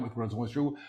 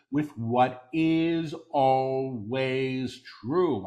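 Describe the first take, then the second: First: Quick, soft undertone; hushed preview. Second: "always true" drawn out slowly; stress on ALWAYS TRUE. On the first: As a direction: say it softly and rapidly before proclaiming it. Quick soft take before repeating aloud. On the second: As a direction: underline "always true" with long, weighty words. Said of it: "Underline the words always true". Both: Real, not acted.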